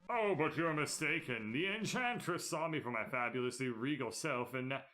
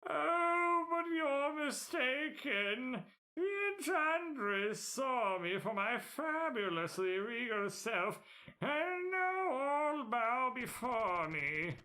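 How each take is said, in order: First: It is read in his plain voice. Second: It is read in a showy character voice.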